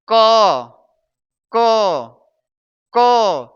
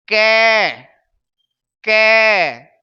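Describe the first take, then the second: First: क as "kuh" with a small-mouthed vowel; separate, firm "kuh" for क; correct pronunciation model. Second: कै loud and stretched as an open "kai"; wrong pronunciation demo. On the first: Teacher showing the right way to say it, neat short vowel. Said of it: "इसे बोलेंगे". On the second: Teacher showing what not to say, long emphatic vowel. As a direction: draw out कै, falling at the end. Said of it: "नहीं बोलेंगे". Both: Shown as a demonstration.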